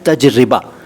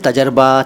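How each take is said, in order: First: The word is said as taj-ri-ba, with i vowel. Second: The middle is said as tajar-ba, two syllables. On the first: The speaker calls it right. "सही शब्द है तजरिबा" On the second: The speaker calls it wrong. "ये दोनों गलत हैं"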